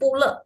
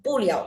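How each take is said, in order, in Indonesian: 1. Suku kata terakhir dibaca le. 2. Suku kata terakhir dibaca liao. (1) "berarti bukan pule" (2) "tapi ya puliau"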